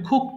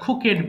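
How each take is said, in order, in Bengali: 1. শেষের -ed শব্দের সাথে মিশে এক সিলেবল হয়। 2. শেষের -ed একটি আলাদা অতিরিক্ত সিলেবল। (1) "এটা হবে কুকড হবে" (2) "এটাও ভুল করে আমরা খুকেড বলে ফেলি"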